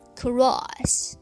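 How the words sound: The vowel opens wider with a relaxed mouth. "而每音要在音音的基础上逐渐扩大口型"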